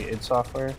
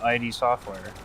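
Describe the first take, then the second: First: The name is said as one short word. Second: The name is spelled out as two letters. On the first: The speaker calls it right. "he would just like say id Software" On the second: The speaker calls it wrong. "I always read it as I D Software"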